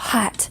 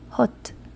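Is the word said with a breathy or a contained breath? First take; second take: breathy; contained. First: A strong puff of breath comes out. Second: The breath is held in, jaw closer. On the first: "In English, you you hear that whole breath coming out" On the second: "if you were to do that with a Spanish accent"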